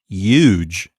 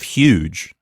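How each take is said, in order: First: It starts with no puff of air. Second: It starts with a puff of air. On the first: This is how people in one region say it. "They don't have that puffing air sound at the beginning" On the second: This is the usual way elsewhere. "there's air rushing over the top of your tongue"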